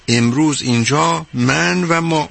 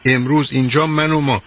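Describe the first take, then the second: First: Each word drawn out slowly; slow emphasis. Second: Said in the usual way. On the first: Shown as a demonstration. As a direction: lean on every word, slowly. (کشیده و آهسته، با تأکید روی هر کلمه)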